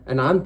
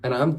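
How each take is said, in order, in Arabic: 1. تنتهي الكلمة بحركة 'a'. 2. تنتهي الكلمة بحركة 'u'. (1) "أنعمت أنت يا رب" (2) "ما تقولش أنعمت أنعمت أنا، غلط"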